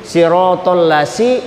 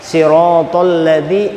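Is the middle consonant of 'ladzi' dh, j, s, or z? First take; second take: s; dh. First: The consonant is an 's' sound as in 'sun'. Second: The consonant is a 'th' sound as in 'this'. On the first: The speaker calls it wrong. "itu huruf sin" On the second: The speaker calls it right. "zal di ujung gigi, di ujung lidah, ujung lidah kena gigi kiri atas"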